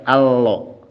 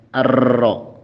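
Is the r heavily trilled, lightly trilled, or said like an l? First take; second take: like l; heavily trilled. First: The r sounds like an l. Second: The r has a long, exaggerated trill. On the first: "jangan juga allo. Jadi kayak huruf L"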